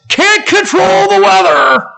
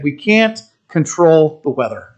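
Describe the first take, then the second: First: It is said in Doctor Hay's old-sounding voice. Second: It is said in the speaker's normal voice.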